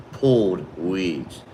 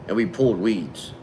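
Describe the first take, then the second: First: "Pulled weeds" said very slowly, leaning on "Pulled"; slow emphatic repeat. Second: Said in the usual way. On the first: Real, not acted. Griping to chat about the hot day, slow emphatic "Pulled weeds". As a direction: drag out "Pulled weeds" like it still hurts.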